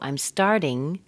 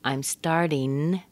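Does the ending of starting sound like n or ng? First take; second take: ng; n. First: Starting ends in a plain ng sound. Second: Starting ends in a plain n sound.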